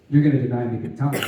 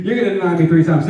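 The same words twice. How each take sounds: First: Said in the usual way. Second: Fast, laughing through the words. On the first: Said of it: "Jesus is like". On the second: Real, not acted. Preacher retelling Jesus's warning, laughing. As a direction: chuckle out the punchline. Teller laughs, repeating the line.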